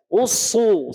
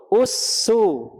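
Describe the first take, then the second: First: Usu full-mouthed, tongue root raised; heavy Usu. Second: Usu said light and thin. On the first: Teacher demonstrates thick sod with dhammah. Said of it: "naik pangkal lidah". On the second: Teacher demonstrates thin sin with dhammah. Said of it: "Sekarang sod dhammah". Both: Shown as a demonstration.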